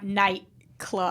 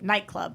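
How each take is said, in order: First: It is said as two separate words. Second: It is said as one single word. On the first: The speaker calls it wrong. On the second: The speaker calls it right. "It's like a one word"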